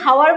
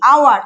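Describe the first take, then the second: First: The word begins with an audible h sound. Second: The word begins directly with a vowel sound. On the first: The speaker calls it wrong. "আমি কি হাওয়ার বলছি? হাওয়ার বলছি না তো" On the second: The speaker calls it right. "আমি বলছি কি আওয়ার"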